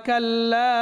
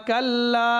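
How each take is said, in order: The two takes are said the same way.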